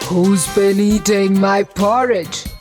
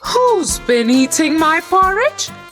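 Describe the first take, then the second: First: It is said in Daddy Bear's voice. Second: It is said in Mama Bear's voice.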